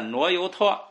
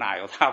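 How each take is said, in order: First: It uses the ancient reading, like nuo you tuo. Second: It uses the modern reading, like na you ta. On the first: "古音" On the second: "以后人们啊慢慢的他非得读成纳由他"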